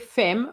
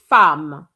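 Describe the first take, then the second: First: The vowel is not pronounced like an 'a'. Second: The vowel is pronounced like an 'a'. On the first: The speaker calls it wrong. "We don't say femme" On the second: The speaker calls it right. "we say femme, like an A"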